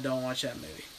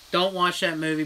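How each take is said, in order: First: Quiet plea. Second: Said in the usual way. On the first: Shown as a demonstration. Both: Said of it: "Please, for the love of God".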